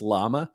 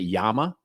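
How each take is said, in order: First: The word begins with an L sound. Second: The word begins with a Y sound. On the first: The speaker calls it right. "I'm sure it's llama" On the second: The speaker calls it wrong. "I want to pronounce it Yama"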